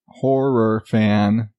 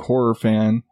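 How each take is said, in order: First: Each sound is pronounced clearly and carefully. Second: The words are run together and unclear. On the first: The speaker calls it right. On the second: The speaker calls it wrong.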